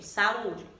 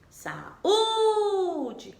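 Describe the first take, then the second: First: Said in the usual way. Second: "Saúde" called out with the Ú held long, high and loud; stretched, high, loud Ú in "Saúde", like calling it; sing-song stressed syllable. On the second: Shown as a demonstration. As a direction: sing out the Ú in "Saúde", drawn out to show the strong syllable. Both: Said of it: "a gente cantava aquela palavra".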